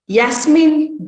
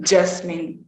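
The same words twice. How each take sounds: First: Said in the usual way. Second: "Jasmine" said for Yasmin; j replacing y. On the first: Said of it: "is pronounced as". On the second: Shown as a demonstration. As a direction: start "Jasmine" with a j instead of y. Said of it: "Yam is pronounced as jam".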